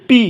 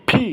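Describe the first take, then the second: First: পি with a plain Bengali প, no air; unaspirated P. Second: ফি popped from pressed lips; aspirated P. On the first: Teacher showing learners' common mistake, unaspirated P. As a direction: say পি without any puff. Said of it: "আমরা অনেকে বলি". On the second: Teacher showing lip position for P, aspirated. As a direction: press the lips, then puff ফি. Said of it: "ঠোঁটটাকে একটু". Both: Shown as a demonstration.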